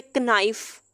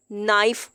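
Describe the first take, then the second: First: कनाइफ with the k spoken; wrong k sounded. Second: नाइफ said with no k sound; silent k in knife. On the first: Teacher shows the wrong कनाइफ to avoid. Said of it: "ये गलत होता है". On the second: Teacher models नाइफ for students, k silent. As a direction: start नाइफ straight on the n. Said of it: "के silent है". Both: Shown as a demonstration.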